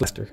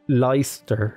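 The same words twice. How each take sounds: First: It is pronounced the usual spoken way. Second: It is pronounced the way the spelling suggests. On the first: The speaker calls it right. "it's Leicester is how you say it" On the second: The speaker calls it wrong. "I know that says Leicester"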